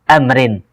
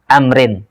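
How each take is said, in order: The two takes are said the same way.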